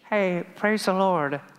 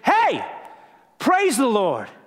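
First: It is said in a casual, low-key way. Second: It is said with excited, exclamatory energy.

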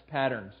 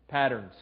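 The two takes are said the same way.

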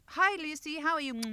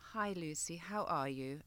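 First: It is said in a quick, casual way. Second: It is said slowly and with sincere feeling.

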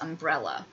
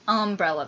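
First: The stress falls on the second syllable, brel. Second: The stress falls on the first syllable, um. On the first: This is the usual way of saying it. "I put the accent on the second brel" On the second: This is the Southern way of saying it. "the accent goes on the first syllable"

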